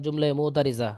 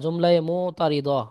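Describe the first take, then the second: First: The consonant is pronounced like a z sound. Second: The consonant is pronounced like a d sound. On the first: "দদকে জদ পড়েন তারা বলবেন" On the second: "দদ"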